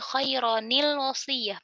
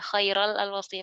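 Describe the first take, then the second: First: The 'n' is kept with an added 'i' vowel. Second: The 'n' is dropped and merged into 'l'. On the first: The speaker calls it right. "nunnya ini dikasih kasroh" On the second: The speaker calls it wrong. "padahal salah"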